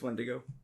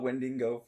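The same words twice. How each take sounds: First: No extra n sound comes before the g. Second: An extra n sound comes before the g. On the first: The speaker calls it right. "But it's Wendigo" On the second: The speaker calls it wrong. "I just added that extra N out of nowhere"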